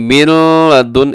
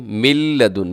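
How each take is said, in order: First: The n is pronounced before the l. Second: The n merges fully into a doubled l. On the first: The speaker calls it wrong. "मिन लदुन ऐसे नहीं पढ़ना आपने" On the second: The speaker calls it right. "इसमें नून क्या हो जाएगा, खत्म हो जाएगा"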